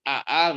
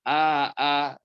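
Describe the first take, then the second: First: The two glottal stops follow with no long vowel. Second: A long vowel separates the two glottal stops.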